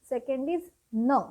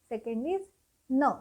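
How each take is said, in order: The two takes are said the same way.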